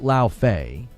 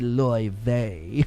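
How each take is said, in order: First: The name sounds like 'Lao Fei' with an F. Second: The name sounds like 'Loy Vei' with a V. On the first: This is how the cast says it. "They pronounce it Lao Fei" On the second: This is the supposedly correct original pronunciation. "it's actually supposed to be Loy Vei"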